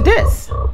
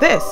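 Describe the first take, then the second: First: The voice sounds noticeably changed and unusual. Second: The voice sounds normal and usual. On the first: This is the voice during pregnancy. "to this" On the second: This is the voice before pregnancy. "my voice went from this"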